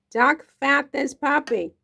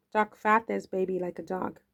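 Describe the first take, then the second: First: Duck fat this puppy said higher, louder and slow, savoring each word; hammed-up catchphrase. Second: Said in the usual way.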